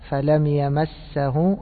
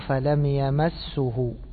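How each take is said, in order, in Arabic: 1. حرف السين يحمل الحركة 'a'. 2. حرف السين يحمل الحركة 'u'. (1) "إما أن تفتحها" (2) "وإما أن تضمها"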